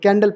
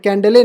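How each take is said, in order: First: It ends on the final l sound. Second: It ends with an extra vowel sound. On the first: The speaker calls it right. "कैंडल पढ़ेंगे" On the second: The speaker calls it wrong. "कैंडले नहीं पढ़ेंगे"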